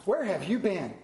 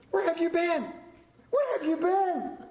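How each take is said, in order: First: Said in the usual way. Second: Building excitement. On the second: Acted. Woman greeting her found rings, rising each time. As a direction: climb up, longing for the lost thing.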